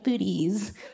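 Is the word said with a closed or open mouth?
closed. It is said with a tight, closed mouth.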